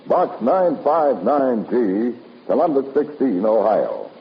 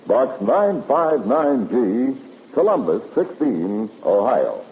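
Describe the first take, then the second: No difference in how they are said.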